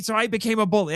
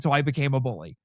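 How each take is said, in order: First: Put-on higher, heated kid voice; raised quoted voice. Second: Said in the usual way. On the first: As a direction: quote the bully, pitched up. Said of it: "He's like". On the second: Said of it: "It's like".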